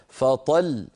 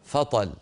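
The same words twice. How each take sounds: First: The final doubled consonant is pressed with force. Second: The final consonant is said plainly, without pressure. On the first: The speaker calls it right. "لابد من بيان الحرف المشدد عند الوقف هكذا" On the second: The speaker calls it wrong. "ولا يقبل البتة فطل"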